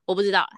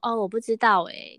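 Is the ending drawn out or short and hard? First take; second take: short hard; drawn out. First: It is said short, clipped and hard. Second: The final syllable is drawn out softly.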